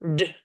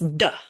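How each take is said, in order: First: The sound stops short with the mouth closed. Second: The sound is followed by an extra uh vowel. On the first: The speaker calls it right. "like it ends D. You end like with your mouth closed" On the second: The speaker calls it wrong. "Some students are taught that it's duh"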